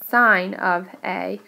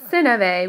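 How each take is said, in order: First: The first word rhymes with 'line'. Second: The first word rhymes with 'win'. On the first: The speaker calls it right. "we pronounced it sine of A" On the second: The speaker calls it wrong. "it's not sin of A"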